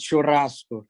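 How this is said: It is said with a southern Brazilian accent. "Some places in the south would say it's churrasco"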